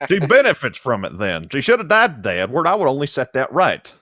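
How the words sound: It is read in an exaggerated Southern accent.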